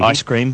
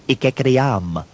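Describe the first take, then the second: First: The word is said in its ordinary form. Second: The word is said with extra made-up syllables. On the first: "alternative pronunciations for existing English language words" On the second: "Ice cream becomes ikekriam"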